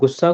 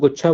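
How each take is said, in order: First: The word is said with a clear s sound. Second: The s sound is lisped into a ch sound. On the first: "गुस्सा को" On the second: "थोड़ा तुतला के बोल रहे हैं ना प्यार में"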